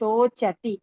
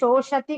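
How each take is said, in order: First: The middle consonant is a 'ch' sound. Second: The middle consonant is a 'sh' sound. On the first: The speaker calls it right. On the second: The speaker calls it wrong. "అది శోషతి కాదు"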